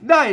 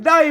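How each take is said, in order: First: The word carries the ordinary standard Thai tone. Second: The word carries a special Northern Thai tone. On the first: "มันเสียงโทปกติ" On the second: "มันเสียงโทพิเศษโทเมือง"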